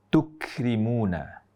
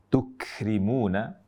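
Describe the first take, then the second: No difference in how they are said.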